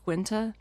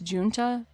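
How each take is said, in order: First: The name begins with a hard G sound. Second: The name begins with a J sound. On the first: The speaker calls it right. "in New Jersey it's more commonly pronounced Guenta" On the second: The speaker calls it wrong. "I pronounced John Guenta's last name as Junta based on what the internet told me"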